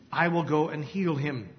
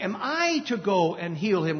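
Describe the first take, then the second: First: Said in the usual way. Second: "I" lifted and leaned on in "Am I to go"; stress on I. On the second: Shown as a demonstration. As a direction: question with the weight on "I". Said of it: "with the emphasis on the "I".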